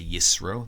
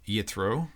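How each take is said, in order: First: The middle consonant is an s sound. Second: The middle consonant is a t sound.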